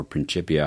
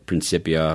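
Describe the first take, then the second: First: "Principia" with a ch sound for the second c; "Principia" the Italianate way, like "chip"; ch pronunciation. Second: "Principia" with an s sound for the c; "Principia" with a soft c, like "sip"; soft-c pronunciation. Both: Shown as a demonstration. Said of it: "however you pronounce it".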